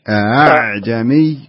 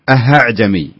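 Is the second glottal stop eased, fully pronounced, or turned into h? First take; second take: eased; h sound. First: The second glottal stop is weakened, almost a vowel. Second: The second glottal stop turns into an h sound. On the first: The speaker calls it right. "بينهم أعجمي أعجمي" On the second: The speaker calls it wrong. "ولا يصلح نقول أهعجمي"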